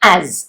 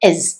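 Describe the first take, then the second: First: The word is said with a full, open vowel. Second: The word is said with a short, reduced vowel. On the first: "അതിന്റെ strong ആയിട്ടുള്ള ഉച്ചാരണം ആസ് ആണ്" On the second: "അതിന്റെ വീക്ക് form എന്ന് പറയുന്നത് എസ് ആണ്"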